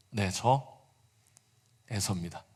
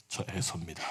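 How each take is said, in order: First: Lightly lowered, quiet voice; a hint of a put-on low voice; faked deep voice. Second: Low, quiet put-on deep voice; faked deep voice. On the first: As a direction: Jacob answering again in his brother's deep voice. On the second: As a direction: Jacob dropping his voice to pass as his brother. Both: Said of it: "낮은 목소리를 흉내 냈는데".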